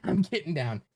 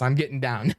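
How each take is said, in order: First: Laughing through the words; amused, half-laughing reply. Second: Said in the usual way. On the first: Real, not acted. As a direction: giggle it out while ducking. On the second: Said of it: "I'm serious".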